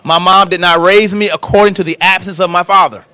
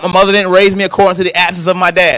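First: It is said slowly and deliberately. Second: It is said at a normal pace.

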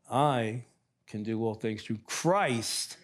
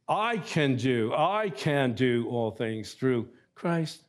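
First: The stress falls on the word Christ. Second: The stress falls on the opening words. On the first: The focus is on the source of strength. The speaker calls it right. "wanted the emphasis on Christ more than on me" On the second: The focus is on the speaker's own ability. The speaker calls it wrong. "I kept placing the emphasis on I can do all things"

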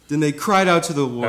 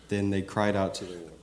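First: It is said forcefully, with strong emphasis. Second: It is said calmly, without much force.

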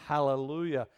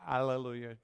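First: The word starts with a breathy h sound. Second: The word starts with a vowel, no h sound. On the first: The speaker calls it right. "It's Hal, it's a huh" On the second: The speaker calls it wrong. "people go, Alleluia"

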